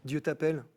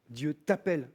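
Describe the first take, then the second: No difference in how they are said.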